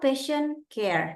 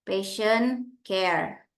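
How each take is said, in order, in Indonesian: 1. Frasa itu ditekan, cepat, dan tersambung. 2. Frasa itu diucapkan datar, tanpa penekanan. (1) "dia agak cepat disambung gitu" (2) "Itu datar aja"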